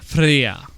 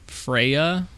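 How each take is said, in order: First: The name has the original Old Norse pronunciation. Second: The name has a common English pronunciation. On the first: "The actual pronunciation" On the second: "her name is Freya"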